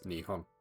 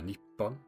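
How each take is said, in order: First: The middle consonant is a soft h sound. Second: The middle consonant is a doubled p sound. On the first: "Japan is pronounced as Nihon in Japanese" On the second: "Nippon is also a valid alternative"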